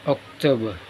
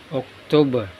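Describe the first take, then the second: The two takes are said the same way.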